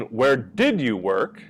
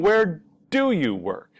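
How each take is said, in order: First: "did" leaned on in "Where did you work?", a bit slow; stress on did. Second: "do" pushed higher and stronger in "Where do you work?"; stress on do. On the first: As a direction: hit the word "did" to contrast with do. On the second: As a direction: hit the word "do" to contrast with did. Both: Shown as a demonstration. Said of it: "big difference between".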